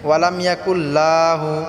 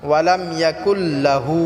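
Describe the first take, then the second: First: The la syllable in lahu is stretched long. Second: The la syllable in lahu is kept short. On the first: The speaker calls it wrong. "লাহু লাটা টান করে" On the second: The speaker calls it right. "এখানে লাটা টান হবে না"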